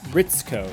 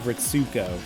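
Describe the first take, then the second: First: The middle sound is a short clipped ts. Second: The middle sound is a full sue syllable. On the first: The speaker calls it right. "I should start saying Ritz Ritzko" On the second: The speaker calls it wrong. "instead of Ritsuko"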